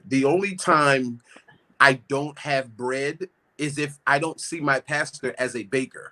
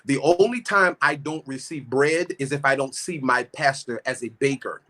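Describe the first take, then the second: First: It is said slowly. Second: It is said at normal speed.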